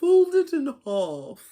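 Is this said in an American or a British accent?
British. It is said in a put-on British accent.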